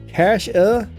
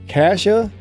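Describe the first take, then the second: Both takes have the same delivery.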